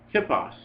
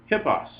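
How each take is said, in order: Both takes have the same delivery.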